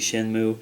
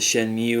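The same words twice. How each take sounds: First: The last syllable rhymes with 'do', like 'moo'. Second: The last syllable sounds like 'mew', with a y-glide. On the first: "if you think of the word do, D U E, it would be do, so this would be Shenmue" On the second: "I've called it Shenmue all these years"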